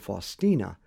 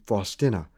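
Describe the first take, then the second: First: The name is said the English way. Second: The name is said the Polish way. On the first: The speaker calls it wrong. "rather than Faustina ... pronouncing it incorrectly" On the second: The speaker calls it right. "I pronounce her name Faustina"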